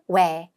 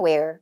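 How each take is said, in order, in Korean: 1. 이 단어는 r 소리 없이 끝나요. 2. 이 단어는 강한 r 소리로 끝나요. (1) "영국 호주 에센트가 where 하고 발음만" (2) "북미 에센트는 where, er 굴리지만"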